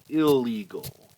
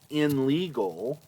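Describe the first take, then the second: First: The prefix blends into the l, with no n sound. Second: The prefix keeps an n sound before the l. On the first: The speaker calls it right. "we say" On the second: The speaker calls it wrong. "we don't say"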